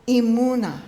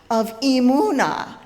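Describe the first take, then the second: First: Said in the usual way. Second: Emunah leaned on and louder, falling; stressed emunah. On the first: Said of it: "the sound that a baby donkey makes". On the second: Shown as a demonstration. Preacher building up to the bray, a stressed emunah. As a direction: lean into emunah. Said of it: "you need to say it like braying".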